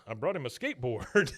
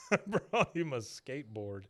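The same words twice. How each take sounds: First: Said in the usual way. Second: Laughing through the line; laughing repeat. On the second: Retold or imitated. Repeating Redcorn's skateboard line to co-host, laughing. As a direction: say it again, cracking up.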